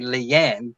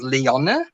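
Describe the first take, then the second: First: The name is said the plain English way. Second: The name is said the Dutch way. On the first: This is how the spelling suggests it is said. The speaker calls it wrong. "it's like you would say Leanne" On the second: This is how the name is really said. The speaker calls it right. "because she came from Holland, the Netherlands, it's actually pronounced as Leonne"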